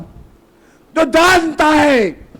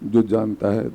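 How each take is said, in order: First: It is shouted very loudly like a rally speech. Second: It is mumbled very quietly under the breath. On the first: "चीख करके" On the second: "मैं यहां पर बैठ करके बुदबुदाऊं"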